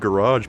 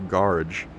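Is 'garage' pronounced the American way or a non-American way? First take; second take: American; non-American. First: It is pronounced in the American way. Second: It is pronounced in a non-American way. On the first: This is how Americans normally say it. The speaker calls it right. "Americans pronounce it garage" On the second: This is how the actor in the game says it. The speaker calls it wrong. "why is he saying garage"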